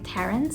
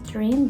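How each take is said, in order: First: The name ends with an s sound. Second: The name ends without an s sound. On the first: This is the habitual way the speaker says it. "I'm so used to pronouncing it Terence" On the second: This is how the family says it should be pronounced. "My mom told me a bunch of times to pronounce it Terene"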